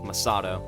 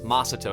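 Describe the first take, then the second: First: The stress is on a later syllable. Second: The stress is on the first syllable. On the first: This is not how the name is said in the game. "instead of" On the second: This is how the name is said in the game. "we pronounce the very first syllable the most"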